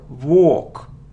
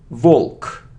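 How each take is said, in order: First: A long vowel with no L sound. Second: An L sound is heard before the K. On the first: The speaker calls it right. "it's a long sound or, or, without L" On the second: The speaker calls it wrong. "It isn't walk"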